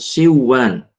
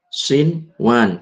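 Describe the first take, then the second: First: The n sound merges into the next sound. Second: The n sound is pronounced clearly. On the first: The speaker calls it wrong. "bukan siwan" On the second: The speaker calls it right. "Bacanya adalah sinwan"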